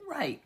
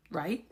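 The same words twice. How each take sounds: First: RIGHT pitched high, then falling; affirming answer. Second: RIGHT lifted at the end as a question; questioning check. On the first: Creator answers their own check before moving on, affirming answer. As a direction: answer RIGHT higher, with a decisive fall. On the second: Creator checking viewers follow the nationality point, questioning check. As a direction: ask RIGHT with a small rise. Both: Real, not acted.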